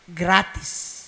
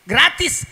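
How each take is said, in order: First: Said in the usual way. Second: Gratis loud and higher, pressing hard; eager insistence. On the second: Acted. Halimah pressing the Prophet's mother to accept, loud eager insistence. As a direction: push the word Gratis out, pleading.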